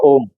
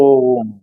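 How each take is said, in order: First: The vowel is short and not stretched. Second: The vowel is stretched out long. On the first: The speaker calls it wrong. "उच्चारण ऐसे नहीं किया जाता ओम का" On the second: The speaker calls it right. "लंबा खींचा जाता है"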